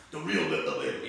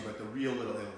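First: Giovanni Palo impression. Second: Said in the usual way. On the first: Host echoing Giovanni about the Bronx, lower mild imitation. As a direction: lightly imitate Giovanni's low proud tone. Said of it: "as G-, Giovanni says". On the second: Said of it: "Giovanni says".

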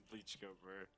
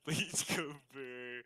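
First: Quoted catchphrase. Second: Very slow, stretched-out mock quote; slow, silly YouTuber impression; drawn-out quoted catchphrase. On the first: Retold or imitated. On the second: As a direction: drag every syllable out like a catchphrase. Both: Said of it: "what YouTuber did I just quote".

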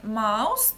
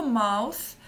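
First: "mouse" said slowly, ending in a clear hissing s; "mouse" drawn out, finishing on a plain s sound. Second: "mouth" drawn out, finishing on a breathy th. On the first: Teacher contrasts mouse and mouth for students, slow plain s. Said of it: "розглянемо на прикладі конкретних слів". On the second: Teacher contrasts mouse and mouth for students, slow th ending. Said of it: "покласти свій язичок між верхніми та нижніми зубками". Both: Shown as a demonstration.

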